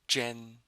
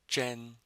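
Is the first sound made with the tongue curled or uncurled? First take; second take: curled; curled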